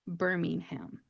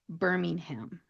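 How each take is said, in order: First: American pronunciation, with the h sound pronounced. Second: The same.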